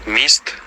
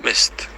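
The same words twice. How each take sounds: First: Mist with a clear ee sound; mist, vowel as unrounded i; Ukrainian i vowel. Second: Mist with Ö in place of i; mist, vowel shifted from i toward Ö; village Ö vowel. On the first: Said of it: "in Ukrainian we have I". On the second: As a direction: say mist with a rounded Ö sound. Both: Shown as a demonstration.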